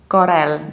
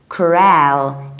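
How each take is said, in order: First: The stress is on the first syllable. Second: The stress is on the second syllable. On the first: The speaker calls it wrong. "It's not Corel" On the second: The speaker calls it right. "you stress the second syllable"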